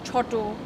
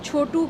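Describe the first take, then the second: First: It is said the Bengali way, ending in -o. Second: It is said in plain standard Hindi.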